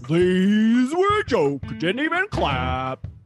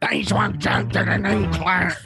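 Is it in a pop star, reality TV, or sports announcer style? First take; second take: sports announcer; reality TV. First: It is said like a sports announcer. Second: It is said like a reality TV star.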